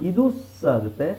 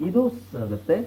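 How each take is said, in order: The two takes are said the same way.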